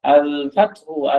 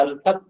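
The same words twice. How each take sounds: First: الفتح slowly as "al-fat-hu"; final -u voiced. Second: الفتح as "al-fath"; pause form. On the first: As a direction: end الفتح on a u vowel. (الفتح শেষে উ-কার দিয়ে "আল-ফাতহু") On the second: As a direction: end الفتح without a vowel. (الفتح শেষে স্বর ছাড়া "আল-ফাতহ") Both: Shown as a demonstration. Drill: full ending, then pause form.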